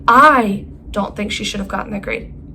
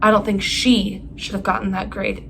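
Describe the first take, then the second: First: The stress falls on the word think. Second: The stress falls on the word she. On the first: The speaker only doubts it rather than knowing it. "I don't think it" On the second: Someone else should have gotten the grade. "It should have been someone else"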